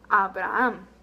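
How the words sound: Said with Spanish vowels, every A sounding alike. "the same name in Spanish, we would say Abraham"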